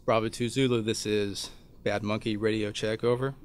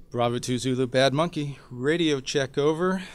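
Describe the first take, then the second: First: Calm radio call; steady radio check call. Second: Louder, more insistent radio check; calling again, getting impatient; urgent radio call. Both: Shown as a demonstration. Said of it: "So I key the handset".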